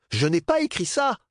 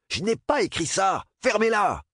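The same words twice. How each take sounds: First: High, loud, angry denial; grumbling denial. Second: High, loud yelling denial; furious shout. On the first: Bernard insists to Dap he didn't write it, high loud grumble. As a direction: protest it again, heated. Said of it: "maugréa Bernard". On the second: Bernard yells at the mocking boys, high furious shout. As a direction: Bernard screaming his innocence at the room. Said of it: "de hurler sur les garçons". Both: Acted.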